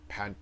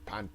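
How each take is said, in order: No difference in how they are said.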